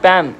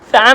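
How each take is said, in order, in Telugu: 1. ఈ పదం p శబ్దంతో మొదలవుతుంది. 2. ఈ పదం f శబ్దంతో మొదలవుతుంది. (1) "ప్యాన్ ప్యాన్" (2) "ఫ్యాన్ కాదు"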